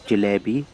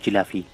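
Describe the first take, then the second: First: The word is pronounced in a posh, formal way. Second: The word is pronounced in a casual, everyday way. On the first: "that's the posh way of saying it" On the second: "I call them jalafi"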